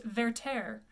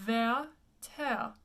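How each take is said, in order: First: Werther as "vair-tair" with English r's; hard American r's in Werther; common mispronunciation of Werther. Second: Werther as "veh-tehr", light back r; French pronunciation of Werther. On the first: Teacher quotes the frequent mistake, anglicized. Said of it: "is often pronounced". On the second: Teacher corrects the title for students, French pronunciation. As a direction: split Werther into two open French syllables. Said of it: "but it's actually". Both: Shown as a demonstration.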